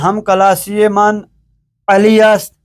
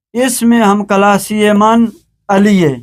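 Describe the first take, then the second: First: Full است after علی; formal ending, علی است with st sounded; written Persian form. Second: است shrunk to -e in علیه; spoken Persian form. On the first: Teacher reads the written sentence, علی است in full. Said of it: "فارسی گفتاری است". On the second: Teacher reads the spoken sentence, علیه as ali-ye. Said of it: "ہے کے ساتھ تلفظ کیا جاتا ہے". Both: Shown as a demonstration.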